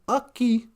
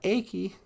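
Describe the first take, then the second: First: The first vowel sounds like 'uh'. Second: The first vowel sounds like 'ay'. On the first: The speaker calls it right. "A's sound like uh. That's why we call this ucky" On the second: The speaker calls it wrong. "and not achy"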